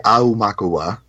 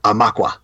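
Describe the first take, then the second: First: The word is said with five syllables. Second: The word is said with three syllables. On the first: "I say Aumakua, 5 syllables" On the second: "I've also heard Amakwa, like 3 syllables"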